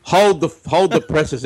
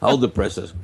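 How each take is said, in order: First: Announcer-style, drawn out; old radio voice. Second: Said in the usual way. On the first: Pretend. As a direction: read it like a newsreel man. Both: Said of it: "the old radio voice".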